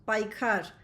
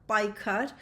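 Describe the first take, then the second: The two takes are said the same way.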